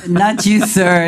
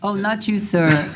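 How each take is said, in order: First: Louder emphatic repeat. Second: Said in the usual way. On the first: Real, not acted. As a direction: call it out clearly over the room. Mayor repeats correction louder.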